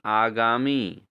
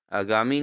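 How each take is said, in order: First: आगामी with long opening "aa"; correct pronunciation. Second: आगामी with short first "a"; wrong pronunciation. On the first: Teacher corrects students, आगामी opening long. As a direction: stretch the first vowel, आगामी as "aa-gaamee". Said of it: "आगामी नहीं". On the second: Teacher shows students the error, आगामी opening short. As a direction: say आगामी as "a-gaamee". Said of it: "नहीं". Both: Shown as a demonstration.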